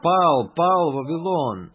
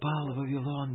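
First: It is said loudly, as a cry. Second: It is said quietly and softly. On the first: The message is proclaimed boldly to everyone. The speaker calls it right. "это громкий клич, громким голосом" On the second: The message is passed on timidly, as if unimportant. The speaker calls it wrong. "это не просто он тихонько говорит"

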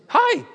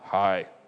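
First: It is said in an excited, lively way. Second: It is said in a cold, passive-aggressive way.

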